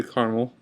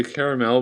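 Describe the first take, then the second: First: Said in the usual way. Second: "caramel" in three syllables, "care-a-mel"; others' pronunciation. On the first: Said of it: "but I say caramel". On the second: Shown as a demonstration. Vlogger showing how many people say it, full pronunciation. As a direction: sound every syllable of "caramel". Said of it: "A lot of people say".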